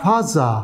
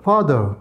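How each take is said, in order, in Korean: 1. 일본식 소리가 나고, th를 j로 바꿔 발음했습니다. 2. 표준 영어 발음이고, th가 분명합니다. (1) "그 사람이 말한 말대로 조금 해보 보면" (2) "보통 말하면 이 정도가 되는데"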